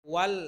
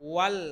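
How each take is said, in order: The two takes are said the same way.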